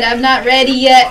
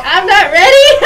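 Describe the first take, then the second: First: Said in the usual way. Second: Higher, louder, bursting into laughter; laughing protest. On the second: Real, not acted. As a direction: protest loudly as the giggles take over. Protest repeated, breaking into laughter.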